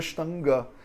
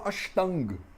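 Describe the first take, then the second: First: The word ends with its final vowel pronounced. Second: The word ends without its final vowel. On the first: This is the theoretical textbook form. "em vez de" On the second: This is how it is said in everyday practice in India. "a gente fala Ashtang"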